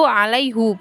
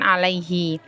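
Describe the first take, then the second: First: The word ends with a 'u' vowel. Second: The word ends with an 'i' vowel. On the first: The speaker calls it right. "dibacanya itu alaihu" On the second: The speaker calls it wrong. "bukan alaihi"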